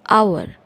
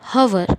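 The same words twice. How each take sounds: First: The word begins with a vowel sound. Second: The word begins with an h sound. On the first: The speaker calls it right. "We always say hour" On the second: The speaker calls it wrong. "We do not pronounce hour"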